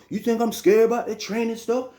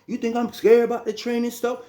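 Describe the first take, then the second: No difference in how they are said.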